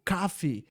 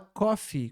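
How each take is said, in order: First: The first vowel is open, almost like A. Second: The first vowel is a rounded, closed O. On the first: "americanos falam um O mais aberto. Fica tipo coffee, quase que uma letra A" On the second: "Fala coffee com O"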